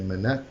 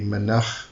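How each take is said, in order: First: The name ends with a plain English-style sound. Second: The name ends with a Hebrew-style final sound. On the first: "but you can say Menach" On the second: "I kind of go with a bit of a more Hebrew pronunciation. So it would be Menach, because it's a C H at the end"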